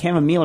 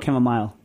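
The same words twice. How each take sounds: First: The last syllable sounds like 'meal'. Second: The last syllable sounds like 'mile'. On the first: "a meal" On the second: "a mile"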